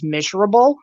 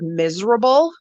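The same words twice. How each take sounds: First: "miserable" with a sh sound, like "mishrable"; mispronounced miserable. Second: Said in the usual way. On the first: Retold or imitated. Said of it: "there's just shit she says wrong".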